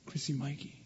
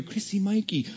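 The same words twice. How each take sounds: First: The names called much softer, gently. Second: Mother calling. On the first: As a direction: call them quietly and tenderly. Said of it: "and then we hear". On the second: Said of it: "I hear". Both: Retold or imitated.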